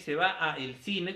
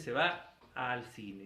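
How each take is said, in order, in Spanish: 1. Las palabras 'a' y 'el' se dicen por separado. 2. Las palabras 'a' y 'el' se unen en 'al'. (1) "En lugar de decir se va a el cine" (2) "Se dice se va al cine"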